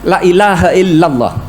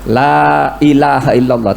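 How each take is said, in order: First: The vowel in the opening 'la' is cut short. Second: The vowel in the opening 'la' is held long. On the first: Truly, God is not Allah. The speaker calls it wrong. "yang di depan tuh pendek" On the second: There is no god but God. The speaker calls it right. "Kalau yang benar tuh"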